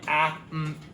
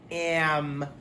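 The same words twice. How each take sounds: First: The vowel is a plain, clear short a. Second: The vowel sounds whiny, like eh. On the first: The speaker calls it wrong. "instead of going am" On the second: The speaker calls it right. "It sounds kind of whiny"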